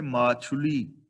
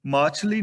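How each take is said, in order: First: ਮਾਛੁਲੀ with a clear u after ਛ, slowly; correct pronunciation. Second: ਮਾਛਲੀ said loud without the u, the wrong way; wrong pronunciation demo. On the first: Teacher giving students the right reading, slow ਮਾਛੁਲੀ. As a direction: sound out ਮਾਛੁਲੀ with the aunkar vowel. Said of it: "ਛਛੇ ਥਲਿਉਂਕੜ ਹੈ ਮਾਛੁਲੀ". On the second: Teacher showing students the wrong reading, loud ਮਾਛਲੀ. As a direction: show ਮਾਛਲੀ as the mistake, clipped mid vowel. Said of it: "ਮਾਛਲੀ ਨਹੀਂ ਪੜਨਾ". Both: Shown as a demonstration.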